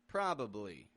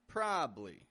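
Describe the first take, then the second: First: All three syllables are pronounced fully. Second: The middle syllable is dropped, giving two syllables. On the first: "a full probably" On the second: "we pretend that it's only probably"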